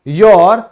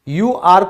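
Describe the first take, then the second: First: It is said as one contracted syllable. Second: It is said as two full words.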